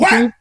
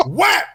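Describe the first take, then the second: First: Sharp mock yell; a dad thumping his choking baby's back, yelling; hard back slap. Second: Much higher, sharper cry; a dad thumping his choking baby harder, yelling high; even harder slap. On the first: A dad thumping his choking baby's back, sharp higher cry. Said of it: "Like, pretty hard". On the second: Retold or imitated. A dad thumping his choking baby harder, very high yelp. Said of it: "Even harder".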